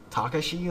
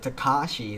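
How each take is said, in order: First: The later 'a' sound carries no extra emphasis. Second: The later 'a' sound carries extra emphasis. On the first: The speaker calls it wrong. "So I'm thinking I'm saying it wrong" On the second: The speaker calls it right. "they put more emphasis on the A at the end"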